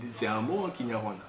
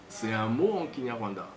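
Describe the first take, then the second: No difference in how they are said.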